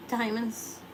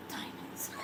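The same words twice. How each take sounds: First: Said in the usual way. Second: Diamonds. breathed in a soft whisper. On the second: Shown as a demonstration. Repeats word, then whispers it.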